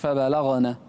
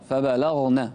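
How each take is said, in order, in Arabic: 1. صوت gh يليه حركة. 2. صوت gh لا يليه أي حركة. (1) "مش فبلغن" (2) "سكن الغين"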